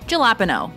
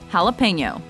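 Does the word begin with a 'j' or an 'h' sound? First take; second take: j; h. First: The word begins with a 'j' sound. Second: The word begins with an 'h' sound. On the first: The speaker calls it wrong. "Common mispronunciation" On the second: The speaker calls it right. "Correct pronunciation"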